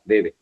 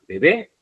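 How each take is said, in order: First: Bebe with the stress on the first be; stress on first syllable. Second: Bebé with the stress on the final bé; bebé stressed at the end; stress on last syllable. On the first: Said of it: "si no le pongo tilde". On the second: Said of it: "la pongo en la última". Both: Shown as a demonstration.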